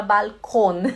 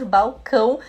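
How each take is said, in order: First: "balcão" said as German bal-KON; German pronunciation. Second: "balcão" as bow-KOWN, nasal ending; Portuguese pronunciation. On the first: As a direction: clear l and a final -kon in "balcão". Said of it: "em vez de falar balcão". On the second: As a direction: say "balcão" Brazilian-style, l as w. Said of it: "em português e falamos balcão". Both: Shown as a demonstration.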